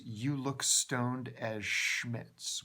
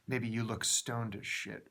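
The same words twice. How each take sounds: First: "You look stoned as Schmitz" read very slowly, word by word; slow, deliberate. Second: Said in the usual way. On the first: Shown as a demonstration. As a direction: lay out "Schmitz" slowly and carefully. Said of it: "The example of how they use that word". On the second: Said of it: "another way of saying".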